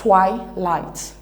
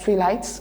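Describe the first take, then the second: First: The word has two I sounds. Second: The word does not have two I sounds. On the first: The speaker calls it right. "but it's pronounced twilight. So here we have two I sounds" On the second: The speaker calls it wrong. "Sometimes we pronounce it as twilight"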